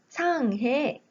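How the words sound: It is said with the Korean reading, Sanghae. "한국인들은 상해라고 발음을 하지만"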